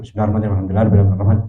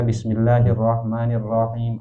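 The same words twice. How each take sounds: First: It is recited very fast and rushed. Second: It is recited at a moderate, even pace. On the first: The long and short sounds become unclear. The speaker calls it wrong. "Tapi aja kata" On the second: Each letter is pronounced clearly. The speaker calls it right. "yang sedang-sedang saja"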